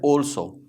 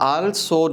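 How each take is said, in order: First: The first vowel is a rounded 'aw' sound. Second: The first vowel is an open 'ah' sound. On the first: The speaker calls it right. "whenever there is l we pronounce it all" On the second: The speaker calls it wrong. "ये आल्सो नहीं है"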